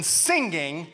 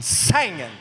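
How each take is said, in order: First: Said in the usual way. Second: "singing" said as low, drawn-out "sangin'"; soulful "sangin'". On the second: Shown as a demonstration. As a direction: drop into "singing" with a wide "a" and no final g. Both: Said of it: "There is a difference between".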